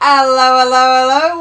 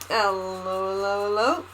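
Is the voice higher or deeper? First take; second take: higher; deeper. First: It is said in a higher voice. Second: It is said in a deeper voice.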